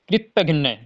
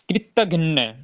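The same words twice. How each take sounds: No difference in how they are said.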